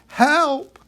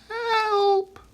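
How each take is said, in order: First: It is said loudly. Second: It is said quietly.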